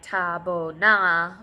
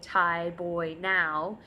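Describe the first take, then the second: First: The vowels are simple, as in Liberian English. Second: The vowels are full gliding diphthongs.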